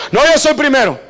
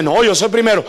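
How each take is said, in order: First: "No, yo soy primero" pushed higher and louder, stressing yo; out-argue your brother, louder each time; insistent sibling shout. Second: Said in the usual way. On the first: Retold or imitated. Preacher acting out siblings fighting over who's first, escalating shout.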